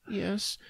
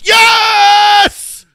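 First: It is said quietly and timidly. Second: It is screamed loudly.

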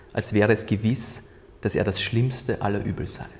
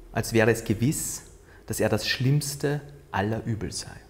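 The two takes are said the same way.

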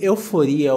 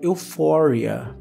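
First: The word has a Portuguese pronunciation. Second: The word has an English pronunciation.

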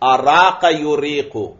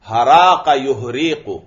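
First: The verb begins with a glottal stop. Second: The verb begins with an h sound. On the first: "यह असल में है अरा का युरीको" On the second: "शुरू के हमजा की जगह हा ले आते हैं"

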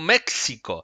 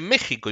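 First: The middle consonant is pronounced as 'ks'. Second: The middle consonant is a throaty 'h' sound. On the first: The speaker calls it wrong. "y no México" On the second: The speaker calls it right. "en México se dice México"

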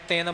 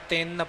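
First: The nasal doubled n sound is dropped. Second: The nasal doubled n sound is fully pronounced. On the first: The speaker calls it wrong. "ਆਮ ਤੌਰ ਤੇ ਅਸੀਂ ਟਿੱਪੀ ਦੀ ਅਣਗਹਿਲੀ ਵਰਤ ਜਾਂਦੇ, ਤਿੰਨ ਬੋਲ ਜਾਂਦੇ" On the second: The speaker calls it right. "ਟਿੱਪੀ ਦਾ ਪੂਰਾ ਉਚਾਰਨ ਕਰਨਾ, ਤਿੰਨ ਪੜ੍ਹਨਾ ਹੈ ਜੀ"

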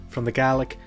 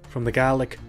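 No difference in how they are said.

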